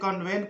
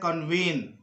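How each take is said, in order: First: The second syllable sounds like 'vent'. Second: The second syllable sounds like 'veen'. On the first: The speaker calls it wrong. "कुछ लोग इसको गलती से कन्वेंट पढ़ते हैं, जो कि गलत है" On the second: The speaker calls it right. "इसको पढ़ना है कन्वीन"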